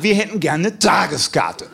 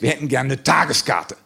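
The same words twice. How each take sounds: First: Slow, emphatic macho insistence; puffed-up testosterone demand; macho, challenged. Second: Said in the usual way. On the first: Retold or imitated. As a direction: repeat it slowly, chest out, rising to a challenge. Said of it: "testosterontechnisch etwas herausgefordert". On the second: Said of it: "fühlten wir uns testosterontechnisch etwas herausgefordert".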